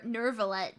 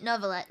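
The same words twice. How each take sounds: First: "Nervalette" with a strong American r. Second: "Novelette" with a vague British accent, no r; British-tinged "Novelette", no r. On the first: Retold or imitated. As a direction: imitate him saying "Nervalette" with the r. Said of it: "He's saying, like, ner". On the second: Shown as a demonstration. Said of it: "obviously I'm saying it with, like, a vague British accent".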